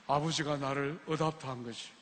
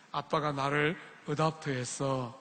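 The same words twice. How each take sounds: First: Softer and lower, firm and certain; Matthew-style retort. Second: Put-on softer and slow, a boy shrugging it off; smiling child's reply. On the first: Shown as a demonstration. Preacher showing the congregation how Matthew answered, softer and lower. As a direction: say it like the boy, steady and sure. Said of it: "매튜처럼 눈을 부라리면서 이야기해야". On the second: 매튜가 유학생에게 웃으며 답하는, 부드럽고 느린 목소리. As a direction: Matthew answering the student with an easy smile, softer and slower. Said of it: "뱅그레 웃으면서 말했어요".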